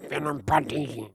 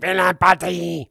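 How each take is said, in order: First: Slow, exaggerated mock French, pushed even further; bad French accent pushed lower and slower; worse French accent. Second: Mock French. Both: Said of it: "do it one more time, even more, worse".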